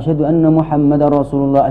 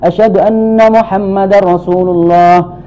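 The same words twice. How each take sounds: First: It is said in a quiet, low voice. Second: It is said in a raised, louder voice.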